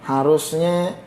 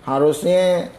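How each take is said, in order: Both takes have the same delivery.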